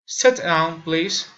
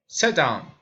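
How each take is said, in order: First: Louder "Sit down", with "please" lifted at the end; rising intonation. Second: "Sit down" dropping steadily in pitch; falling intonation. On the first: Learner demonstrating requests, rising intonation. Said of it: "raising intonation". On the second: Learner demonstrating commands, falling intonation. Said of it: "falling intonation". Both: Shown as a demonstration.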